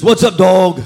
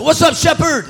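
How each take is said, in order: First: A loud, cocky street greeting; mock street slang hello; imitating friend. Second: High, loud joking reply; playful mock greeting; mock pastor greeting. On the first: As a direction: throw it out like a homeboy. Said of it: "Who talks like that?". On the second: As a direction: fire back a churchy twist. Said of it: "I didn't say that".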